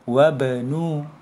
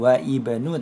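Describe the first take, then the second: First: The i of ibnu is dropped and linked. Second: The i of ibnu is pronounced separately. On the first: The speaker calls it right. "tapi bacanya wabanu. Berarti alifnya tidak dibaca" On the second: The speaker calls it wrong. "bukan wa ibnu"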